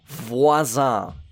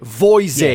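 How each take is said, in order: First: The name is said with a French-sounding pronunciation. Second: The name is said with a broad English pronunciation.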